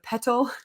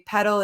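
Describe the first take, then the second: First: The middle T is a crisp, clear T. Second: The middle T sounds soft, like a D. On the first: "instead of petal" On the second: "I say petal"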